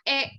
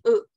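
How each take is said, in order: First: The vowel is the accented e sound. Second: The vowel is a plain unaccented e sound. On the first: The speaker calls it right. "memiliki aksong, dia bunyinya e" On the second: The speaker calls it wrong. "bukan lagi e gitu"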